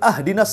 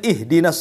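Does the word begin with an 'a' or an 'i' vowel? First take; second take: a; i. First: The first vowel is an 'a' sound. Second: The first vowel is an 'i' sound. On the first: Give us a gift. The speaker calls it wrong. "kita fathah pula tuh" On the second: Guide us. The speaker calls it right. "Harusnya di kasroh"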